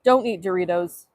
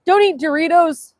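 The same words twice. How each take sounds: First: Said in the usual way. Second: Higher, emphatic order; mock command. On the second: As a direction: proclaim it like a propaganda slogan. Mock propaganda, then calm repeat.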